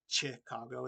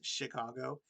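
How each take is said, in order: First: It begins with a 'ch' sound as in chair. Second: It begins with an 'sh' sound as in shoe. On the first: The speaker calls it wrong. "not it's not Chicago" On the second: The speaker calls it right. "the C H in Chicago uh, is pronounced as S H"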